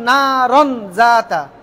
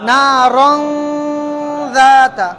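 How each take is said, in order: First: The n sound is said clearly and fully. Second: The n sound becomes a hidden nasal hum. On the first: "এতদিন আমরা পড়তাম" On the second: "এই যে অনুস্বরের মতোই উচ্চারণটা হবে"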